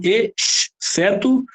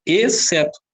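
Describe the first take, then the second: First: EXCETO split as ex-ceto, with a long separate sibilant; split pronunciation. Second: Said in the usual way. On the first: Shown as a demonstration. Teacher testing for a digraph, exceto pulled apart. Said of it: "tem dígrafo?". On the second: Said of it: "Eu falo exceto".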